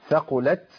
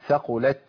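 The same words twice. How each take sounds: First: The final t ends with a hiss like s. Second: The final t ends with only a breath. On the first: The speaker calls it wrong. "ترتب عن الهمس ايه حرف زائد قريب من السين" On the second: The speaker calls it right. "انا طلعت همس"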